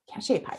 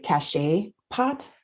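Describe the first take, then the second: First: "cachet pot" said quicker, without the questioning rise; settled pronunciation. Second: "cachet pot" sounded out slowly, rising at the end; unsure pronunciation. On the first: Co-host repeating the term after spelling it, settled "cachet pot". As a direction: confirm "cachet pot" to yourself, lightly. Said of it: "Is that right?". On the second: Co-host unsure of saying a pottery term, tentative "cachet pot". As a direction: try "cachet pot" carefully, as if asking. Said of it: "I'm not gonna say it right". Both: Real, not acted.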